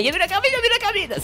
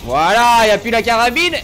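First: Very high, rapid mimicking voice; mocking spammers. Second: High, loud proclamation; exultant announcing shout. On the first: Streamer mimicking viewers spamming him, mocking squeaky voice. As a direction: parrot pestering viewers in a squeaky rush. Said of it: "Tous ceux qui me spammaient". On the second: Real, not acted. Streamer announcing the rifle is gone, loud shout. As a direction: shout it out for everyone to hear.

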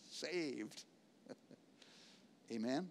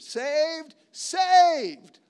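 First: Saved much softer and lower; quiet awed Saved; hushed. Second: Saved shouted much higher and louder; rising shouted Saved; exultant shout. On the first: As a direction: drop to a near hush. Preacher drops to hush after shout. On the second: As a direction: cry it out in triumph. Preacher exults over salvation. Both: Acted.

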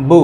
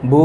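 First: বু said short, without stretching; quick short vowel. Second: বু with a held vowel; one-alif long vowel. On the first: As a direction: keep the vowel of বু brief. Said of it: "এটা হরকতের উচ্চারণ এবং তাড়াতাড়ি উচ্চারণ করতে হবে". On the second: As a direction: draw the vowel of বু out. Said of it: "এক আলিফ". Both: Shown as a demonstration.

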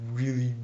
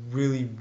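Both takes have the same delivery.

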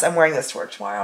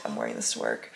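First: Said in the usual way. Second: Much lower, quiet tired mumble; tired mutter. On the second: Real, not acted. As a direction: drop it low under your breath. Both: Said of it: "I'm not even thinking about it".

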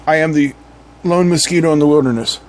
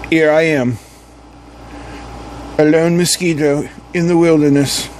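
First: Said in the usual way. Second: Silly mock-British adventurer; British accent. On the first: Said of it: "All right, anyway". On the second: Lone mosquito narrates its wilderness adventure, silly British accent. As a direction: play it with a daft British accent. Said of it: "like, a stupid British accent".

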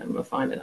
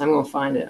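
First: Whispered to herself under her breath; muttered whisper. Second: Said in the usual way. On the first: Real, not acted. Searching her notes, whispering to herself. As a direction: mutter it privately while hunting for notes.

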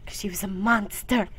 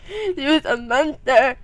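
First: Said in the usual way. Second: Loud, higher, drawn-out monster imitation; mock monster voice. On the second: Joking about the sister when little, mock monster voice. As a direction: push it out slowly like a hammed-up monster.

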